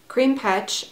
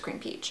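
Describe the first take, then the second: First: The second word is said as petch. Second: The second word is said as peach. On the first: "I think it's Petch" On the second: "Maybe it's Cream Peach"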